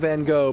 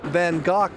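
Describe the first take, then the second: First: The name has an American pronunciation. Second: The name has a British pronunciation. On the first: "In the U S, we call him" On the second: "but in England, they say"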